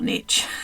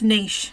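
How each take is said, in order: First: The word is said the American way. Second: The word is said the non-American way. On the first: The speaker calls it wrong. "Americans have screwed that term up and they say niche" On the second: The speaker calls it right. "it's niche"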